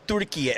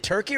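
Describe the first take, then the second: First: Turkey said the Turkish way, as Türkiye; Turkish pronunciation. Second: Said in the usual way. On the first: Shown as a demonstration. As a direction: say Turkey as "TUR-kee-yeh", with a tapped r. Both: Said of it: "How do you say it now".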